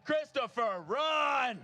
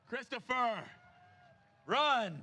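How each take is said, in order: First: Loud cheering shout, high pitched. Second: Calling out. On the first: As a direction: yell it across the finish line. Urging a runner, repeated louder. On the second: Urging a runner to sprint. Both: Real, not acted.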